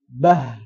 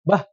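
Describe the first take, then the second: First: The final sound trails off with flowing breath. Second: The final sound is cut off abruptly. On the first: The speaker calls it right. "Jadi dialirkan sedikit" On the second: The speaker calls it wrong. "langsung madek tek ser"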